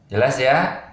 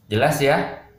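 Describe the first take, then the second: No difference in how they are said.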